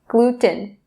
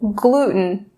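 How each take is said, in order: First: The middle T sound is clearly released. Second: The middle T sound is stopped, not released. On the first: The speaker calls it wrong. "Notice how I'm not saying gluten" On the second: The speaker calls it right. "drop or stop that T sound and say gluten"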